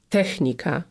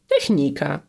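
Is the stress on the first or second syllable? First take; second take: first; second. First: The stress is on the first syllable. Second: The stress is on the second syllable. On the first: This is the formal, official way to say it. "słowo technika powinniśmy akcentować na pierwszą sylabę" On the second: This is the casual, everyday way to say it. "na co dzień potocznie można mówić technika"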